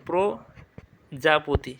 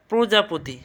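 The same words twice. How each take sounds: First: "প্রজাপতি" as প্রো, pause, জাপোতি; o-vowel pronunciation. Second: Said in the usual way. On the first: Shown as a demonstration. Teacher explaining the o vowel, "প্রজাপতি" slow and split. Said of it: "ওকার আসবে". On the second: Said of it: "ওকারটা হবে".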